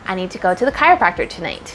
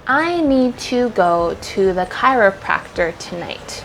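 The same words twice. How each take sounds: First: The sentence is spoken quickly. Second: The sentence is spoken slowly. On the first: "and then try to make it faster" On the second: "say it slow first"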